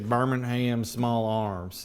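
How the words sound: Birmingham is said the American way.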